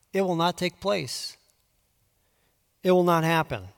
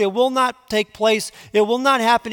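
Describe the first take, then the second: First: Quiet, settled certainty; calm and confident. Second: "it will not happen" raised high and louder, pressed hard; fervent preaching. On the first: Preacher reading God's promise to Judah, calm and sure. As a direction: state it calmly, beyond doubt. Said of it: "as confident and as calm as you can possibly be". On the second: Preacher voicing God's warning to Ahaz, urgent preaching. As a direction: pound out "it will not take place, it will not happen". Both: Acted.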